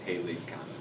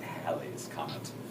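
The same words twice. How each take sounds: First: Halley's is pronounced differently from the English way. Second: Halley's is pronounced the way it's said in England. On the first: "But it's" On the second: "Some people pronounce it in England, they call it"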